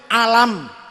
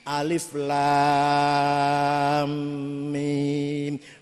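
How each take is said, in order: First: It is read as the single word alam. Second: Each letter name is read out separately. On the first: The speaker calls it wrong. "kula dhewe macane alam" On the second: The speaker calls it right. "sing iki alif lam mim mad lazim kilmi musaqqal"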